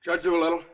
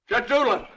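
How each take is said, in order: First: Said in the usual way. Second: Firmer, raised call to a sleeper; insistent call. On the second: Acted. Man waking the sleeping judge, insistent call. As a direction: call the name out to rouse him.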